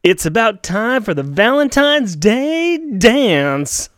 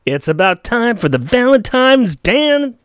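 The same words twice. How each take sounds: First: Valentine's Day dance said slowly and carefully; corrected line. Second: Dan- cut off mid word instead of Day; slip of the tongue. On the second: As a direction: stumble into Valentine's Dan-. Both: Shown as a demonstration.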